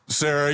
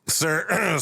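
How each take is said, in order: First: It is said in an ordinary speaking voice. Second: It is said in a put-on character voice.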